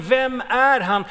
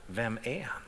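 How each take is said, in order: First: Crowd's question. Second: Quiet echo. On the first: Retold or imitated. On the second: Shown as a demonstration.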